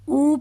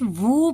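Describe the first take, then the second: First: It is a bare vowel with no w sound. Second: It starts with a w sound before the vowel. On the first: The speaker calls it wrong. "कई लोग जो है ना वो वाव को ऊ पढ़ देते हैं" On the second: The speaker calls it right. "वू वाव की आवाज ही निकालेंगे"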